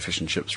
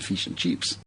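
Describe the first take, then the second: First: It is said in a New Zealand accent. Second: It is said in an Australian accent. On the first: "we we speak a little bit lower and say fish and chips" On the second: "rather than"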